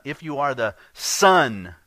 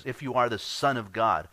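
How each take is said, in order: First: "Son" punched loud and slowed, falling; stress on Son. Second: Said in the usual way. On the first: Shown as a demonstration. Preacher shows his congregation where the emphasis falls, stress on "Son". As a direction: lean hard on "Son", slow and loud. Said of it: "the emphasis is on the Son". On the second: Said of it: "it's the emphatic in the Greek".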